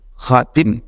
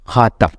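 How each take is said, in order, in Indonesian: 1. Vokal kedua adalah bunyi i. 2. Vokal kedua adalah bunyi a. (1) "bisa dibaca dengan khatim" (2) "bisa dibaca dengan khatam"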